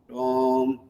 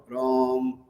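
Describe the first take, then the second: The two takes are said the same way.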